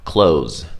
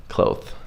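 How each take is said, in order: First: "Clothes" said as "cloze", no th. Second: "Cloth" ending in a th, said softly; clear TH. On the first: Teacher showing what learners often say, Z for TH. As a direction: end "Clothes" on a plain z. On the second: Teacher correcting the usual learner mistake, clear TH. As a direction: finish "Cloth" with tongue between the teeth. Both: Shown as a demonstration. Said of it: "This is what you say".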